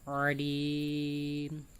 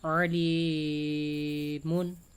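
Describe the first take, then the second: First: The word ends on the consonant m. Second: The word ends with a vowel and n. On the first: The reader stops at this word. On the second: The reading continues without stopping.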